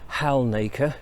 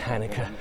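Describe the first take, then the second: First: The name is said just as it is spelled. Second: The name is said differently from its spelling. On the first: The speaker calls it wrong. "the classic error of pronouncing it Halnaka, because that's how it's spelled" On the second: The speaker calls it right. "but it's Hanukkah, apparently"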